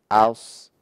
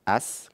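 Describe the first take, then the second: First: The s sound is thick and emphatic. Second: The s sound is thin, without emphatic depth. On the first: "kalau sad aus" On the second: "kalau as sin"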